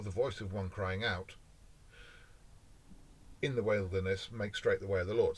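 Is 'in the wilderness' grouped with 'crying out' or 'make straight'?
make straight. The pause falls before 'in the wilderness'.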